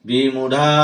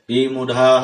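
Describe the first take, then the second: Both takes have the same delivery.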